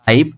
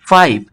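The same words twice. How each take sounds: First: Said in the usual way. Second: পাইপ with a puffed first p, "phipe"; aspirated P. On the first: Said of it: "পি এর উচ্চারণটা ফ". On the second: Shown as a demonstration. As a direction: burst air into পাইপ. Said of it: "ফ এর মতো হবে". (পাইপ-কে "ফাইপ" উচ্চারণ)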